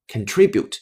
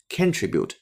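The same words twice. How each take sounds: First: The stress is on the second syllable. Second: The stress is on the first syllable. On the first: The speaker calls it right. "它的正确发音重音呢是在第二个音节" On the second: The speaker calls it wrong. "喜欢把重音放在第一个音节，错误的读成了contribute，那是错的。"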